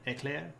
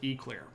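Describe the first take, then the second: First: The word is said with a French-like pronunciation. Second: The word is said with a Southern US pronunciation. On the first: "that's probably closer to the actual French pronunciation" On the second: "which is I feel like the regional correct pronunciation"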